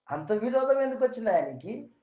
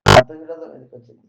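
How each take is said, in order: First: Said in the usual way. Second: Much louder, punchy and faster; loud rhetorical question, fast; emphatic repeat. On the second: Shown as a demonstration. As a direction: hammer the question home to the listeners.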